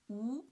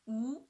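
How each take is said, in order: First: The pitch rises from middle to high. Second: The pitch rises from middle to high.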